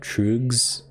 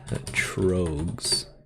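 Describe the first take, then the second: First: The vowel sounds like a 'u'. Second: The vowel sounds like an 'o'. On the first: "This this is pronounced kind of like a U, right?" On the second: "I'm sure that's not how you pronounce it"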